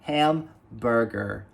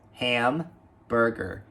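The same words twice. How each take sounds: First: The word starts with an audible h sound. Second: The word starts with an audible h sound.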